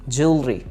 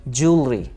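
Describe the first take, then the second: No difference in how they are said.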